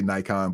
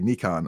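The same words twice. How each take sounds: First: It is said the American way. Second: It is said the non-American, international way.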